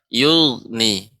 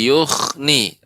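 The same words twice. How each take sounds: First: The middle consonant sounds like a voiced gh. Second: The middle consonant sounds like a voiceless kh. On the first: The speaker calls it right. "yang benar yughni" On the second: The speaker calls it wrong. "huruf ghain yang sukun menjadi kha"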